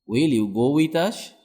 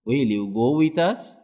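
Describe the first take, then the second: No difference in how they are said.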